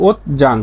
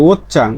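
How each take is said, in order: First: Said in the usual way. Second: ওত চাং with a hard ch; changed consonant. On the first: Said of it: "স্বাভাবিক উচ্চারণ". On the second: Shown as a demonstration. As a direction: say ওত চাং, ch replacing j. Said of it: "এর উচ্চারণটা কি?". (ওত চাং, জ নয়, চ)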